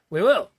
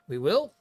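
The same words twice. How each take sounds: First: It is said in a cheerful, upbeat tone. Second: It is said in a doubtful, questioning tone.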